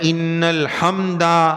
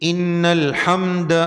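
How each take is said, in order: First: The word ends with a drawn-out final vowel. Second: The word ends short, with no drawn-out vowel. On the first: The speaker calls it wrong. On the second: The speaker calls it right.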